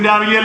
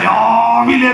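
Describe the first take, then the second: First: The word is said plainly, without extra force. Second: The word is said with strong, drawn-out emphasis. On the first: It means any morning hour. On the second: It means very early, before six.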